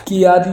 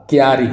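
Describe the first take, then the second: First: क्यारी split as "ki-yaa-ree"; high, loud क्यारी with an extra i; wrong pronunciation shown. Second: क्यारी joined as "kyaa-ree"; k glides straight into y in क्यारी; correct pronunciation shown. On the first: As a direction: say क्यारी in three beats, "ki-yaari". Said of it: "क्यारी नहीं होगा". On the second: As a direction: say क्यारी in two beats. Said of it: "आधा का या में होगा". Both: Shown as a demonstration.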